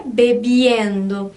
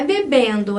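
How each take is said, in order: First: Bebiendo drawn out slowly, i glide before -endo; Spanish -iendo. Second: Bebendo with plain -endo, no i glide; Portuguese ending. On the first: Teacher correcting students, slow bebiendo with a clear i glide. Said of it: "tem esse i, que é importantíssimo". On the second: Teacher showing students the wrong form, bebendo with plain -endo. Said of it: "não é bebendo". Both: Shown as a demonstration.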